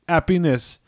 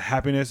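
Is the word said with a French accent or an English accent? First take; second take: French; English. First: It is said with a French accent, no H. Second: It is said in plain English, with the H.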